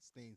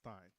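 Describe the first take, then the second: First: The vowel sounds like 'ay' in 'say'. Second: The vowel sounds like 'eye' in 'iron'. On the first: The speaker calls it wrong. "Some people don't know how to say it, so they say stain" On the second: The speaker calls it right. "because it's I, iron"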